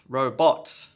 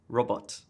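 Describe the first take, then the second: First: The stress is heavily exaggerated and overdone. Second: Both syllables get equal stress. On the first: "First common problem is too much stress" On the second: "let me just try to do it with even stress on each of the syllables"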